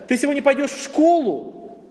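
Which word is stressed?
школу. The stress falls on the word школу. The question is about where one goes. "То есть у тебя есть выбор, в школу, на работу"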